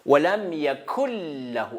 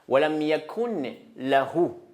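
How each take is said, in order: First: The n sound merges into the following l. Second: The n sound before lahu is pronounced. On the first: It follows the rule for recitation. "on ne prononce pas les nouns. C'est effacer les nouns" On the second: It follows the written letters. "C'est écrit les nun"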